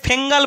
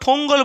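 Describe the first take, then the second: First: It has an 'ng' sound and an 'e' vowel. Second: It has an 'ng' sound and an 'o' vowel. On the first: "অনেকে ফেঙ্গাল বলছে" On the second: "বা ফঙ্গল বলছে"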